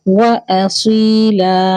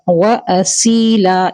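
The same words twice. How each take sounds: First: The s sound is heavy and emphatic. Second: The s sound is light, like a plain s. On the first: The speaker calls it right. "असीला सौद हैवी करेंगे" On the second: The speaker calls it wrong. "ये गलत है"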